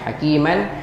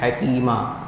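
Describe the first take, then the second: First: The word ends with a short n sound. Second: The word ends with a long a sound. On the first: The reading continues without stopping. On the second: The reader stops on this word.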